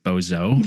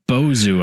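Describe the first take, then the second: First: The name ends with an 'oh' vowel. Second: The name ends with an 'oo' vowel. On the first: The speaker calls it wrong. "in my head I always want to pronounce it Bozo, like the clown, but no" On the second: The speaker calls it right. "it's pronounced uh, Bozu, I believe"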